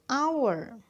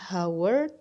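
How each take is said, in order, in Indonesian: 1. Langsung diawali dengan bunyi vokal. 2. Diawali dengan bunyi h yang diucapkan. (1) "H-nya hilang" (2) "bukan hour"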